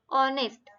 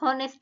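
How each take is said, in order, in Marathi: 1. हा शब्द थेट स्वराने सुरू होतो. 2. हा शब्द 'h' आवाजाने सुरू होतो. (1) "एच सायलेंट असतं" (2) "हॉनेस्ट नाही म्हणायचं"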